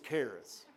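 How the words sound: It is said with a Texas accent.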